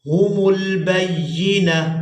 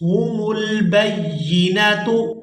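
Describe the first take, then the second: First: The word ends with a still h sound. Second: The word ends with a t sound and vowel. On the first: The reader stops on this word. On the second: The reader continues without stopping.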